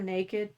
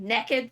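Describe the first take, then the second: First: It is said in a standard accent. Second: It is said in a Southern Highland accent.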